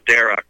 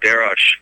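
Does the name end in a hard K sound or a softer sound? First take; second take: hard K; softer. First: The name ends with a hard K sound. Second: The name ends with a softer, non-K sound. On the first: "it's probably pronounced like a K" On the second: "or Darosh"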